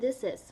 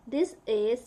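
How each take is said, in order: First: The words are said fast and run together. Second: Each word is said separately and fully.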